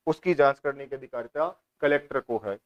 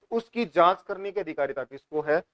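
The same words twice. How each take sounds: First: उसकी जांच करने की अधिकारिता कलेक्टर को है said lower as a settled falling answer; answer stated. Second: उसकी जांच करने की अधिकारिता किसको है posed as a quiz question to the class; asked as a question. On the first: Teacher answering own quiz question: settled statement. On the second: Teacher quizzing students: question tune. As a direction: ask the class who holds the power. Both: Shown as a demonstration.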